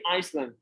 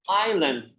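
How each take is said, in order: First: An s sound is heard in the middle. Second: No s sound is heard in the middle. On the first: The speaker calls it wrong. "don't say Iceland" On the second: The speaker calls it right. "as we do not pronounce"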